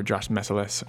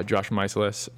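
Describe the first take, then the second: First: First syllable of Meiselas rhymes with "mess"; alternative pronunciation. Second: First syllable of Meiselas rhymes with "eyes"; mispronounced name. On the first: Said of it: "depends how you wanna pronounce it". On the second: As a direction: say Meiselas as MY-suh-luhs. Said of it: "I'm gonna pronounce it wrong". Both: Shown as a demonstration.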